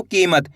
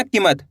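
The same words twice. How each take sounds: First: "कीमत" with a long drawn-out ई; खिंची हुई ई. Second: "कीमत" with a short, quick की; short unstretched ई. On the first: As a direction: draw out the की in "कीमत". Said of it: "इस तरीके से खींच के पढ़ना". ("कीमत" की ई को लंबा खींचकर) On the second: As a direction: say "कीमत" without drawing out the ई. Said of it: "ऐसे नहीं पढ़ना". ("कीमत" में ई को बिना खींचे, छोटा) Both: Shown as a demonstration.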